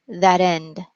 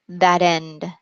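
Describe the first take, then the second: The two takes are said the same way.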